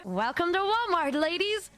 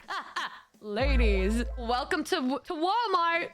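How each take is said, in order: First: Lightly voiced, sing-song greeting; a hint of the odd NPC greeter; mock creepy greeter. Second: Slow, drawn-out mock greeting; lightly imitating a weird greeter; creepy store greeter. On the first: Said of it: "He started going". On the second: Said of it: "and he said".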